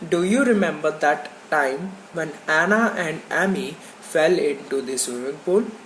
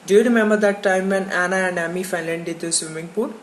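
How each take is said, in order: First: Each word is said separately with pauses between. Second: The words run together in one smooth flow. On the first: The speaker calls it wrong. "not like" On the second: The speaker calls it right. "You have to speak like this only"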